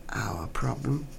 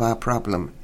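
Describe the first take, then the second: First: Sceptical whisper. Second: Said in the usual way. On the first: A narrator's reading. Narrator mocking the escort's words, whispered. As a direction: whisper it back in disbelief, much softer.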